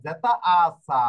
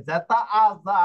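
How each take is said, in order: First: সা with a sharp hissed s; voiceless zeta. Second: জা with a buzzing z; voiced zeta. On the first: Teacher showing the tricky contrast, সা voiceless. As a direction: slowly lead into a drawn-out, unvoiced সা. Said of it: "এটাই তো ঝামেলা". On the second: Teacher showing the tricky contrast, জা voiced. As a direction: stretch জা, voicing its first sound. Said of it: "আমাদের ঝামেলা হচ্ছে এখানে". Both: Shown as a demonstration.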